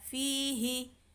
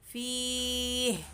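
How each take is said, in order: First: The final h carries a short vowel. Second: The final h has no vowel. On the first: The word is joined to what follows. "kalau di wasol dia dibaca satu harokat" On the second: The reader stops on this word. "Tapi kalau di wakof ... jadi hak sukun"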